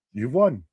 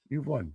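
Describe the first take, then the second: First: Said in the usual way. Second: Much softer echo of the same words; half-muttered concession to co-host; quiet repeat. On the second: Real, not acted. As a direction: let it fall away nearly to nothing. Repeated concession, dropped away.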